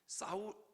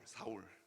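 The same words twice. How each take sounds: First: The first consonant is strong and tense. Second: The first consonant is soft and plain. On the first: The speaker calls it wrong. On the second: The speaker calls it right.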